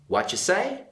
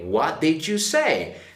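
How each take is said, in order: First: The word did is reduced away almost completely. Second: Every word, including did, is fully pronounced. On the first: "They will just reply" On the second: "Normally people will not say"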